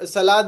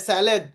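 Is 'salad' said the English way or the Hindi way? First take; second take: Hindi; English. First: Said with Hindi-style vowels, like 'sa-laad'. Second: Said with English vowels, like 'sal-ud'. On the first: The speaker calls it wrong. "सलाद हे आपण मराठी हिंदीमध्ये बोलतो" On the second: The speaker calls it right. "त्याचं pronunciation सॅलेड आहे"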